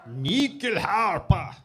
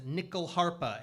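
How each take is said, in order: First: It is said with a Swedish accent. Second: It is said with an American accent. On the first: "Said it with that weird accent because this instrument comes from Sweden" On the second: "with a regular American accent"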